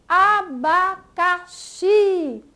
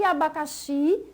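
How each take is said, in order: First: Abacaxi slowly by syllables, loud push on final xi; stress on XI. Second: Said in the usual way. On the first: Shown as a demonstration. Teacher showing pupils the stressed last syllable, stress on xi in Abacaxi. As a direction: draw out "Abacaxi", hitting xi hard. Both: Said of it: "ela é pronunciada com mais força".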